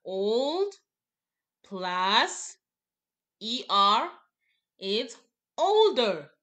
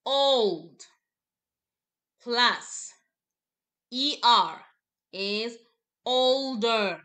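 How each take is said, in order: First: Put-on Old, plus, E R, it's, older, each called out loud and spaced; loud slow drill again. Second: Put-on Old, plus, E R, is, older, each word called out loud with pauses; slow, loud drill. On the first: Teacher repeating the chant for the class. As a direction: repeat the drill with pauses between the words. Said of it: "So one more time". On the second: Teacher drilling the class in a loud, slow chant. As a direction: call out each step of the drill. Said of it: "You see where my hand is showing?". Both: Shown as a demonstration.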